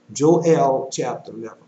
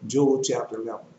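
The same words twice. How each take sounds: First: "Joel" said Jo-EL, louder on the correction; Joel as two syllables. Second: "Joel" said Jole, rhyming with coal; Joel as one syllable. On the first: Preacher corrects the reference, "Joel" as Jo-EL. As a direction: say "Joel" as jo-ELL, stressing the end. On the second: Preacher announces the reference, "Joel" as Jole. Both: Shown as a demonstration. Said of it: "I'm gonna repeat that".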